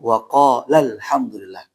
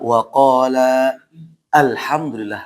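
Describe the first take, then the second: First: The words run together; the long vowel is dropped. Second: The words are separate; the long vowel is kept. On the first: "tapi dia langsung ke alnya" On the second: "Ini kalau kita pisahkan maka dua-duanya dibaca"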